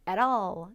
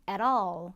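The two takes are said the same way.

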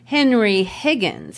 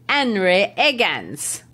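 First: The h sounds at the word starts are pronounced. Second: The h sounds at the word starts are dropped. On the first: This is the standard pronunciation. "He cannot say Henry Higgins" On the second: This marks the speaker as a lower-class Cockney. "He cannot pronounce his H's, ... Instead, he says Henry Higgins"

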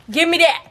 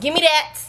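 First: It is said in her normal voice. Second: It is said in a stern mom voice.

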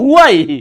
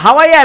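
First: The word begins with a 'hu' sound. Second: The word begins with a 'ha' sound. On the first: This is how Americans say it. The speaker calls it right. "কয় ভাই এটা তো হুয়াই" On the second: This is how Bangladeshis say it. The speaker calls it wrong. "Bangladeshi স্টাইলে বলে হাওয়াই"

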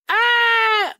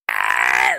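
First: A whiny yell without a throaty scream. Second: A harsh scream pushed from the throat. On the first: The speaker calls it wrong. "that's not screaming. That's just bitching" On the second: The speaker calls it right. "You gotta do the with your throat, because that's actually screaming"

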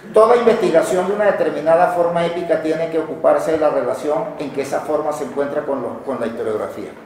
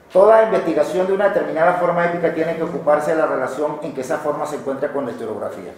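No difference in how they are said.

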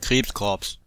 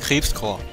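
First: The word ends with an audible ps sound. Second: The word ends without any ps sound. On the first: This matches how the name is written. "Geschrieben wird Krebskorps" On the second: This matches how the name is said in the anime. "Ausgesprochen im Anime wird es immer Krebskorps. Ohne PS"

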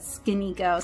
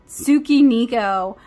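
First: The vowel after the first consonant is dropped. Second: The vowel after the first consonant is clearly pronounced. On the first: This is how anime watchers say it. "if you watch anime, you want to call it Skinico" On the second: This is how people unfamiliar with anime say it. "people who have never read manga and don't watch anime definitely pronounce it as Tsukiniko"

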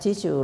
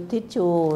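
First: It is said with a native English pronunciation. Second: It is said with a Thai pronunciation. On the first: "like the native speaker of English use" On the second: "In the Thai people just do tissue"

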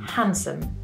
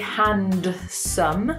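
First: The D sound in the middle is silent. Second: The D sound in the middle is pronounced. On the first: "for this word, we say handsome" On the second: "We don't say handsome, handsome, because it's really hard to say quickly"

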